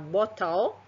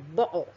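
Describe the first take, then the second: First: The middle t is a clear t. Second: The middle t is a glottal stop. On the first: "normalnya kita ucapkan seperti itu" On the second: "mereka mengucapkannya bo. Jadi tidak T"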